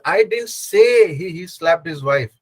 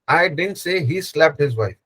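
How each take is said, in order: First: The stress falls on the word say. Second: The stress falls on the word didn't. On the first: It was written or only thought, not said. "I actually wrote it down" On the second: The speaker flatly denies having said it. "Where you are stressing on the didn't"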